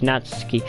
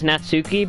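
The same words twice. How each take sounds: First: The name ends with a clipped 'ski' sound. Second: The name ends with a full 'suki' sound. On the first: The speaker calls it right. "you're supposed to pronounce it ski instead of suki" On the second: The speaker calls it wrong. "I know it says Natsuki"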